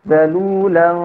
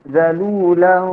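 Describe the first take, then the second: Both takes have the same delivery.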